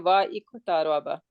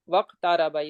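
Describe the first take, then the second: First: A glottal stop separates wa from iktaraba. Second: The words run together without a glottal stop. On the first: The speaker calls it wrong. "I'm not gonna say" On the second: The speaker calls it right. "it it will become"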